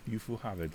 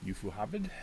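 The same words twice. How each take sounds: First: Ufuhabid stated with a firm falling tune; settling on the name. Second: Ufuhabid asked with a rising, unsure tune; trying out the name. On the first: GM confirming the alien culture name to himself, decided fall. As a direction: land Ufuhabid as a decision, pitch dropping at the end. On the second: GM sounding out the new alien culture name, questioning rise. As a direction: test Ufuhabid as a question, pitch going up at the end. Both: Shown as a demonstration. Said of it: "U-, Ufahavid".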